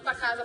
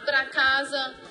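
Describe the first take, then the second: First: The R in the first word is dropped. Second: The R in the first word is pronounced. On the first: "quando elas estão falando muito rápido" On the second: "nós costumamos falar"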